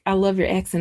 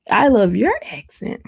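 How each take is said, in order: First: Said in the usual way. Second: "your" lifted higher than the rest; stress on YOUR. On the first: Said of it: "He was like". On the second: Retold or imitated. Retelling the comeback to a compliment, stress on YOUR. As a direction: lean on "your" to return the compliment.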